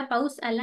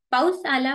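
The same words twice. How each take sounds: First: Said in the usual way. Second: Loud, bright call of the rain's arrival; children shouting. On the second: Retold or imitated. Teacher reading the poem, kids cheering the rain, shouted. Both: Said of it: "ओरडायला लागलो".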